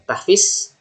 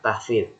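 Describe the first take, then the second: First: The last consonant is a plain z sound. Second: The last consonant is a dh-like sound. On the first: The speaker calls it wrong. "Jadi salah kalau orang bilang tahfiz" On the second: The speaker calls it right. "bukan za tapi dho"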